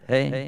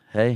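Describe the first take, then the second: First: The voice has a digital effect. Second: The voice has no added effect.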